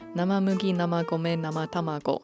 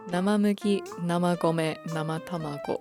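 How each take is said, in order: First: It is said quickly. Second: It is said slowly.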